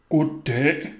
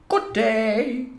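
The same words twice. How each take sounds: First: Put-on child putting on a deep man's voice. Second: High-pitched, smiling greeting; smiling neighbour lady. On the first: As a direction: greet her in a put-on deep voice. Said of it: "sagde jeg med en dyb stemme". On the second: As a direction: greet passers-by in a high lady's voice. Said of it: "smilede og sagde". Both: A narrator's reading.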